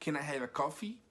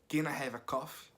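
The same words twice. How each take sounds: First: The last word ends with a clear 'ee' sound. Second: The last word sounds like 'cough', without 'ee'. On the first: Asking for a cup of coffee. The speaker calls it right. "você tem que forçar o i no final do coffee" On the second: It sounds like asking permission to cough. The speaker calls it wrong. "você não pode falar assim"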